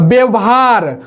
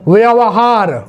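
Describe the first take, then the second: First: The first sound is a b, lips closed. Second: The first sound is a v, lips near teeth. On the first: The speaker calls it wrong. "वो भी गलत हो गया" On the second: The speaker calls it right. "व यहां क्या बोलना है"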